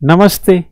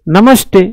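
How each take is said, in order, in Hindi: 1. हिंदी ढंग से बोला गया, नरम दंत्य त के साथ। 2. अंग्रेज़ी ढंग से बोला गया, कड़े मूर्धन्य ट के साथ। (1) "हम इसको क्या पढ़ेंगे?" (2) "वो क्या पढ़ेगा?"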